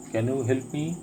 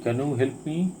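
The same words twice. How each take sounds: The two takes are said the same way.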